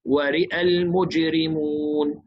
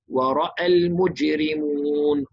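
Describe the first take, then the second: First: The vowel after the r is tilted toward e. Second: The vowel after the r is an open a. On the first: "إمالة الراء فقط عند الوصل" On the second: "بالفتح وصلا ووقفا"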